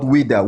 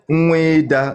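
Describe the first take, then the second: First: The name begins with a W sound. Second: The name begins with an N sound. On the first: The speaker calls it wrong. "not Wida" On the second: The speaker calls it right. "the real pronunciation is Nweda"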